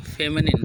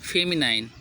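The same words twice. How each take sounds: First: "फेमिनिन" ending in a short "nin"; correct pronunciation. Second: "फेमिनाइन" ending in a long "nine"; spelling pronunciation "फेमिनाइन", -ine as "ain"; as spelled. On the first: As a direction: say "फेमिनिन" with a short i in the last syllable. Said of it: "लेकिन पढ़ें क्या?". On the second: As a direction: read "फेमिनाइन" letter-true, rhyming the end with nine. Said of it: "लिखें". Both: Shown as a demonstration.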